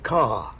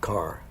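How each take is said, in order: First: The final r is dropped, R-less style. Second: The final r is clearly pronounced.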